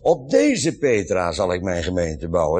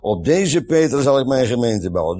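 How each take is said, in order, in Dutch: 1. Het woord 'deze' krijgt sterke nadruk. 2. Het woord 'deze' krijgt geen bijzondere nadruk.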